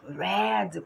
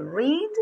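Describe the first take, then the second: First: "read" with a short e, like "red"; past-tense pronunciation. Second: "read" with a long ee, like "reed"; present-tense pronunciation. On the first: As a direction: say "read" to rhyme with "bed". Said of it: "quando eu falar no passado". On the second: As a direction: say "read" to rhyme with "need". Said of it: "a pronúncia é diferente". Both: Shown as a demonstration.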